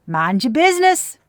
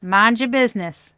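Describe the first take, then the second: First: Mind your business said loud, higher, with weight on business; a firm warning to gossiping onlookers; emphatic. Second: The settled echo of the warning, less loud; a calm second warning; emphatic repeat. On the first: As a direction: punch out business, louder and higher. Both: Shown as a demonstration. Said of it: "I'm here to tell you".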